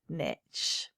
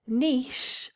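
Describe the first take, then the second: First: It rhymes with kitsch, with a short vowel. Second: It rhymes with quiche, with a long vowel. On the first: The speaker calls it wrong. "and not niche" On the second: The speaker calls it right. "this is pronounced niche"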